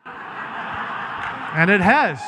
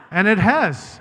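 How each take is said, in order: First: Slow, laughing through the words. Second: Said in the usual way. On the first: Real, not acted. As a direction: chuckle it out at your own joke. Laughs at his own joke.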